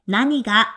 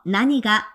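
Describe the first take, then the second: First: It is said as nani ga, three syllables. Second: The same.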